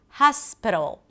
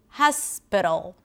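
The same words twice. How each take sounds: The two takes are said the same way.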